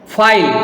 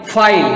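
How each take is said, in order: Both takes have the same delivery.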